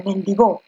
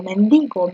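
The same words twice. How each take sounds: First: Mendigó stressed on the last syllable, men-di-GÓ; wrong stress. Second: Mendigo stressed on DI, men-DI-go; correct stress. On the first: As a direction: put the weight on GÓ in mendigó. (mendigó con fuerza en GÓ) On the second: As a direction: say mendigo with DI strong. (mendigo con fuerza en DI) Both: Shown as a demonstration. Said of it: "Tú dices mendigo".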